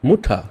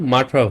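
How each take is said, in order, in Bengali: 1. প্রথম স্বরধ্বনিটি 'oo' এর মতো শোনায়। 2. প্রথম স্বরধ্বনিটি 'uh' এর মতো শোনায়। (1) "জার্মানে আপনি উকে উ এর মতোই বলবেন" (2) "ইংলিশে বললে মাঠা হয়ে যেত"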